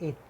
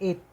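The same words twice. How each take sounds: First: The final t is light and soft. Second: The final t is hard and forceful. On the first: The speaker calls it right. "बट इट। थोड़ा सा टी" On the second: The speaker calls it wrong. "नॉट इट"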